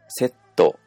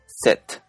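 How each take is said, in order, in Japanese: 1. この単語は母音で終わります。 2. この単語は子音で終わります。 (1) "これ全部母音で終わっているんですが" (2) "全部子音で終"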